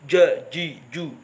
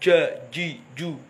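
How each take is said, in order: The two takes are said the same way.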